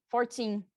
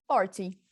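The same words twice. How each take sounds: First: Fourteen with the second syllable held and strong; stress on TEEN. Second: Forty with a strong first syllable and short ty; stress on FOR. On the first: Teacher recapping the rule, fourteen stressed on teen. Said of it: "tá no teen". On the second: Teacher recapping against fourteen, forty stressed on for. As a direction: hit the start of forty. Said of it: "lembrar que a força". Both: Shown as a demonstration.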